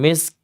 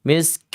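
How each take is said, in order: Both takes have the same delivery.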